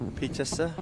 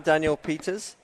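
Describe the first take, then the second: First: The name ends with an extra final vowel. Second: The name ends without an extra final vowel. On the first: The speaker calls it right. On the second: The speaker calls it wrong.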